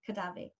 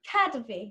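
First: The stress is on the second syllable. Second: The stress is on the first syllable. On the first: The speaker calls it wrong. "not Kadavi" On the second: The speaker calls it right. "Kadavi, not Kadavi"

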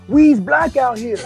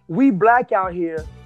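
First: It is said in a put-on voice. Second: It is said in a natural voice. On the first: "I'm going to do it in his voice" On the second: "I'm going to quote him"

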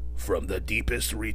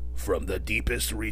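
First: It is said in a deep robot-leader voice. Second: It is said in a deep robot-leader voice.

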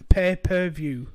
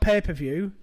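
First: The start sounds like separate pay and per. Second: The start sounds like the word paper. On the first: The speaker calls it right. "It's pay-per-view" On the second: The speaker calls it wrong. "You're saying papers in the thing that you write on. It's not pay-per-view"

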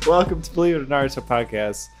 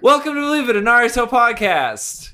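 First: It is said without much excitement. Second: It is said with clear excitement.

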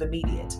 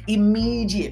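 First: The middle consonant sounds like a 'd'. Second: The middle consonant sounds like a 'j'. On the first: The speaker calls it right. "instead of immediate" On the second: The speaker calls it wrong. "I said it wrong on purpose, immediate with a J"

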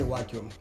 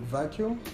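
First: The word begins with a W sound. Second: The word begins with a V sound. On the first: "he would say vacuum" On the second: "instead of saying vacuum"

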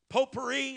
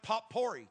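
First: It has its usual French-style pronunciation. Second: It is sounded out the way it is spelled. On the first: The speaker calls it right. "you don't pronounce them how they are spelled" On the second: The speaker calls it wrong. "it looks like potpourri to me"

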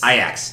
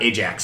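First: The name is said with its Dutch pronunciation. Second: The name is said like the English cleaner brand. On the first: The speaker calls it right. "It's Ajax" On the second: The speaker calls it wrong. "not Ajax"

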